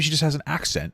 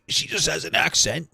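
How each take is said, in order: First: It is said in a natural everyday voice. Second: It is said in a put-on foreign accent.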